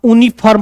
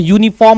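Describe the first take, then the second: First: यूनिफॉर्म said "OO-ni-farm", with no Y; यूनिफॉर्म misread as "oonifarm"; mistaken reading. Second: यूनिफॉर्म said "YOO-ni-form"; यूनिफॉर्म with an initial Y glide before "oo"; correct Y onset. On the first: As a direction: drop the Y from यूनिफॉर्म, open on "oo". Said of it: "तो आप गलत कर दोगे". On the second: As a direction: start यूनिफॉर्म with a clear Y. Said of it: "यूनिफॉर्म होता है". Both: Shown as a demonstration.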